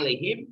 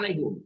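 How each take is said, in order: First: The last syllable has an i vowel. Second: The last syllable has a u vowel. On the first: The vowel is adjusted to match the sound before it. "ada yang baca alaihim" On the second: This is the original form of the word. "ada yang baca alaihum"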